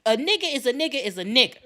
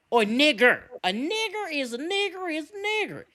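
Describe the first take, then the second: First: Said in the usual way. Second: "nigger" with a fully sounded final R; "nigger" pronounced deliberately with a hard R; hard R ending. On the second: Shown as a demonstration. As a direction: stress the -er at the end of each "nigger". Repeats it with hard R.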